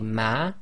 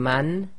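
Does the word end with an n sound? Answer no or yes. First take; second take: no; yes. First: The word ends without any n sound. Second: The word ends with a clear n sound. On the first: The speaker calls it right. "we now say ma" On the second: The speaker calls it wrong. "instead of saying man"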